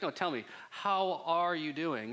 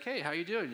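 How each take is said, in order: First: Slow, deliberate "how are you doing"; earnest second asking. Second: Said in the usual way. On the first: Acted. Preacher asks a churchgoer the second time, slow and insistent "how are you doing". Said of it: "the second question always reveals". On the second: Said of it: "I'd be like".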